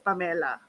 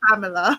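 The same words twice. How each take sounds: First: The name is said with a Filipino pronunciation. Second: The name is said with an American pronunciation. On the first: This is how the family meant the name. "the way that my parents intended for it to be pronounced" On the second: This is how people from the US say the name. "whenever I speak to someone from the U S, it's always Pamela"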